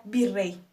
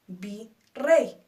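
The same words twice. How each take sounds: First: Said in the usual way. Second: "Virrey" split as Vi, pause, rrey; syllable by syllable. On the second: Shown as a demonstration. Teacher counting two syllables for learners, "Virrey" syllable by syllable. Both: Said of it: "Dos sílabas".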